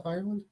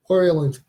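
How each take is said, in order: First: Said in the usual way. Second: Louder Irish-accented "Ireland" with an OR start; attempted Irish accent. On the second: Shown as a demonstration. Host asking if anyone is from Ireland, attempted Irish accent. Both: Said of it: "Is that the right accent".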